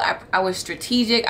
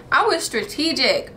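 First: Said in the usual way. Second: "was" stressed, said higher; emphatic repeat. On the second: Shown as a demonstration. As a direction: lean on "was" the second time, pitched up.

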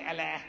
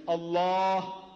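First: ALLAH said short with a thin "a" as in cat; light L, short front vowels in "Allah"; wrong pronunciation. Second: ALLAH with a long, heavy dark "aah"; correct pronunciation. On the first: Speaker shows listeners how not to say it, mispronounced ALLAH. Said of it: "not Allah". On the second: Speaker teaches Christians to say the name, drawn-out ALLAH. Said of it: "you ought to pronounce". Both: Shown as a demonstration.

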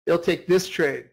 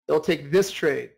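No difference in how they are said.

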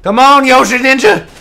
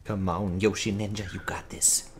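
First: Raised, lively cheer; urging on. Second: Low, very soft urging; root for them under your breath; hushed encouragement. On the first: Gamer cheering on Yoshi Ninja, raised urging. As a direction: urge your teammate on out loud. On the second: Gamer rooting for Yoshi Ninja, hushed encouragement. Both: Real, not acted.

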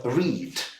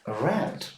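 First: «read» said with one «і» sound, like reed; present-tense «read», rhyming with need. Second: «read» said like red; past-tense «read», pronounced red; past-tense pronunciation. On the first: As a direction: say «read» with a long ee vowel. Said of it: "передаються одним звуком". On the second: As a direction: say «read» with a short e vowel, rhyming with bed. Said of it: "але вимовляється". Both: Shown as a demonstration.

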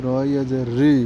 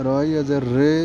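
First: রি with a long ee; maruf long ee. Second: রে with a long Bengali e; majhul e sound. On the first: Teacher drilling ya maruf for pupils, long ee. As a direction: spell it out, then a held 'ree' for রি. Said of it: "দীর্ঘিকারের আওয়াজটা আসবে". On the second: Teacher drilling ya majhul for pupils, e sound. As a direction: spell it out, then a held 'ray' for রে. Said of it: "একারের আওয়াজটা আসবে". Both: Shown as a demonstration.

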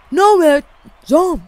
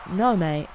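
First: High, loud outraged no mate; loud protest. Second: Said in the usual way. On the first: Real, not acted. Gamer yelling at the game after a bad play, loud outraged protest. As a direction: yell it at the screen in disbelief.

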